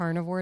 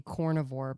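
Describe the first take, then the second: First: Said in the usual way. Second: "cornivore" with "corn" as the first syllable; mimicked accent pronunciation. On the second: Shown as a demonstration. Co-host pointing out the accent, "cornivore" said with "corn". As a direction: say "cornivore" with an "aw" where "carnivore" has "ah". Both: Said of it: "it sounds like you're saying cornivore".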